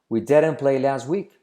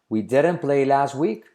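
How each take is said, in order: The two takes are said the same way.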